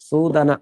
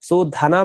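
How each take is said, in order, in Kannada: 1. d ಧ್ವನಿಯನ್ನು ಉಸಿರು ಇಲ್ಲದೆ ಹೇಳಲಾಗುತ್ತದೆ. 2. d ಧ್ವನಿಯನ್ನು ಉಸಿರು ಬಿಡುತ್ತಾ ಹೇಳಲಾಗುತ್ತದೆ. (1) "ಸೂದನ ಅಷ್ಟೇ ಶಬ್ದ, ಇದು ದನ ಅಲ್ಪ ಪ್ರಾಣ" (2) "ಸೂಧನ ಮಾಡ್ಬಾರ್ದಷ್ಟೆ, ಅದು ಧನ ಬೇರೆ"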